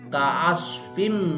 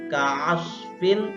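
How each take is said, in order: First: The word ends with an m sound. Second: The word ends with an n sound. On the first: "maka langsung masuk ke huruf mim" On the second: "Bacaannya ka'asfin"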